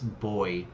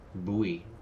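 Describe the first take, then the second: First: It is pronounced in a non-American way. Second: It is pronounced in an American way. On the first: The speaker calls it right. "I say" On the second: The speaker calls it wrong. "Americans say, like, buoy"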